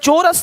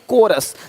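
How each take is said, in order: First: The word begins with a ch sound. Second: The word begins with a k sound. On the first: The speaker calls it wrong. "चोरस नहीं कोरस" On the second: The speaker calls it right. "चोरस नहीं कोरस"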